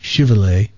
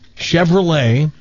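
First: The name is pronounced an anglicized way. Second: The name is pronounced the French way. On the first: The speaker calls it wrong. "not Chevrolet" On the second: The speaker calls it right. "and that's how you pronounce it"

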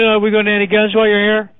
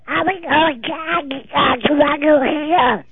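First: It is said in a normal voice. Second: It is said in a Donald Duck voice.

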